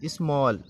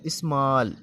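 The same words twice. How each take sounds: First: Said in the usual way. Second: "स्मॉल" with a long open aa sound; "स्मॉल" said as ismaal with a broad aa; long aa in small. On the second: Shown as a demonstration. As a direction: stretch the aa in "स्मॉल". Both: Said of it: "आ की आवाज़ आ रही है इसमें".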